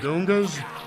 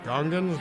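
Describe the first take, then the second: First: The word ends without an n before s. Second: The word ends with an n before s. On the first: This is how the creator says it. The speaker calls it wrong. "He don't even say it right. He calls them Gungas" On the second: This is how everyone else says it. The speaker calls it right. "Everybody else says Gungans"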